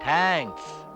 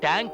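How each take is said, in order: First: It starts with a soft th sound. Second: It starts with a hard t sound. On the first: The speaker calls it right. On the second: The speaker calls it wrong.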